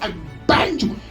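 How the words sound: It is said in a serious, forceful way.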